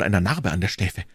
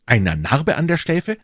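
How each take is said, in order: First: Said in the usual way. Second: Astonished echo of what was just heard; startled exclamation. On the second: A narrator's reading. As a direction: echo it as a sudden, rising question. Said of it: "rief D'Artagnan".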